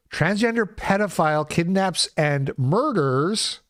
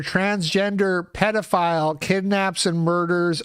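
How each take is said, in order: First: "kidnaps and murders" spaced out with weight; deliberate stress through "kidnaps and murders"; emphatic re-reading. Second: Said in the usual way. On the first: Shown as a demonstration. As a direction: reread it, leaning hard on "kidnaps and murders". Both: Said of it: "that's a key word in that sentence".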